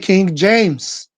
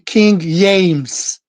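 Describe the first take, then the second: First: James begins with a J sound. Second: James begins with a Y sound. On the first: The speaker calls it right. "you say" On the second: The speaker calls it wrong. "you don't say"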